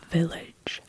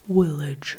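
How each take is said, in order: First: The word begins with a V sound. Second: The word begins with a W sound. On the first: "Instead of village" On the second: "you say village"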